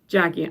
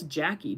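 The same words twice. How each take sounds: First: The name is said with an English accent. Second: The name is said with a French accent.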